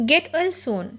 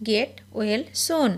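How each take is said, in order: First: Said in the usual way. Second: Slow and deliberate; slow repeat. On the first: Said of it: "teacher models the phrase". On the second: Shown as a demonstration. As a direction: stretch each word out for learners. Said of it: "teacher repeats it slowly".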